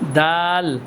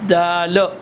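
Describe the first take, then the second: First: The word ends on a held, plain L sound. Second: An extra vowel follows the final L sound. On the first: The speaker calls it right. "आपकी ज़ुबान ऊपर लग जाए" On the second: The speaker calls it wrong. "ऐसे नहीं पढ़ना"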